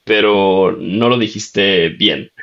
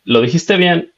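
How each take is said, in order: First: Lento, marcando "no lo dijiste bien" con énfasis en "no"; matiz de la novia. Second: Tono alto y ligero de novia, casi divertida; imitando a la novia. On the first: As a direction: alarga "pero no lo dijiste bien" para corregirle con paciencia. (la novia le corrige el acento, despacio y enfatizando "no") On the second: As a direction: admite que la palabra era correcta, en tono agudo. (la novia le dice que lo dijo bien, con voz aguda) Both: Retold or imitated. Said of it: "y ella me decía".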